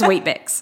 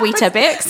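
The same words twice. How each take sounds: First: The word is said in a brief form. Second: The word is said in a longer form. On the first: This is how it is said here. The speaker calls it right. "here it's just Weetabix. Very brief" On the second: This is how it is said in England. The speaker calls it wrong. "in England, we call them Weetabix"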